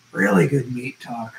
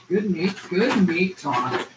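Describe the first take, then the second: First: Said in the usual way. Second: Drawn out slowly, savoring each word; "Good meat, good meat talk" said slowly like tasting it. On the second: Shown as a demonstration.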